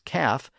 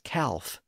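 First: The word is said without an L sound. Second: The word is said with an L sound. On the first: This is the typical English pronunciation. "he pronounces the word calf as calf" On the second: Every letter of the spelling is pronounced. "when it should be pronounced as calf"

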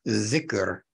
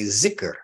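First: The word begins with a th sound. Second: The word begins with a z sound. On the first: "it's zikr in the correct Arabic pronunciation" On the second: "but the Pakistanis will say zikr"

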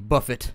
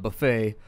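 First: It is said in a Midwestern pronunciation. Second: It is said in a standard pronunciation.

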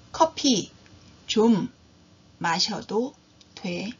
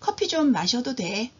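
First: The sentence is spoken slowly. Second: The sentence is spoken at normal speed.

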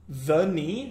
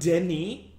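First: The name ends in an ee sound, no s. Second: The name ends with an audible s sound. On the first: The speaker calls it right. "is pronounced the knee Villeneuve" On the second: The speaker calls it wrong. "not Denis"

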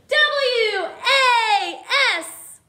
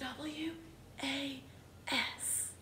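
First: The letters are shouted loudly. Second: The letters are whispered softly.

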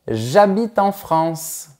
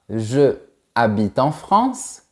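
First: The pronoun's vowel is dropped before the verb. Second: The pronoun's vowel is kept before the verb. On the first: The speaker calls it right. "mais tu diras" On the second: The speaker calls it wrong. "Tu ne diras pas"

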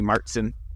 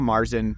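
First: It is said with a German pronunciation. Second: It is said with an Americanized pronunciation. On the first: This is how German speakers say it. The speaker calls it right. "German speaking, it would be Marzen" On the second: This is how people here usually say it. The speaker calls it wrong. "which we call Marzen"

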